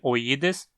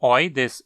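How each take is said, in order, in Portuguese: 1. A tônica cai no i longo. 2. A tônica não cai no i. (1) "esse i que está na penúltima sílaba é longo" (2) "é tão absurdamente comum ver todo mundo pronunciando esse sufixo como oides"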